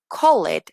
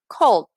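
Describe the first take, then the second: First: The ending is pronounced as a separate syllable. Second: The ending is a soft D sound. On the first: The speaker calls it wrong. "en lugar de decir" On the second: The speaker calls it right. "esta ed es únicamente una D, sin la E"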